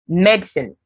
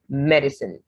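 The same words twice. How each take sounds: First: The word is said with two syllables. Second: The word is said with three syllables. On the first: "with just two syllables in British" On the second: "so with the three syllables"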